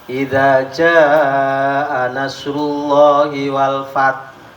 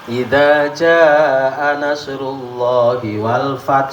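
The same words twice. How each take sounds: First: The long vowel in jaa lasts two and a half alifs. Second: The long vowel in jaa lasts one and a half alifs. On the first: This follows the reading of Asim. "Imam Asim" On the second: This follows the reading of Qalun and Ibn Kathir. "Ini paling pendek"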